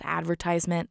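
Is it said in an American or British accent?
American. It is said in an American accent.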